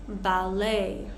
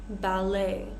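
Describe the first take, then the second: The two takes are said the same way.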